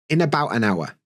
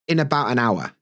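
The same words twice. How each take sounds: First: Consonants run into the following vowels, words linked. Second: The same.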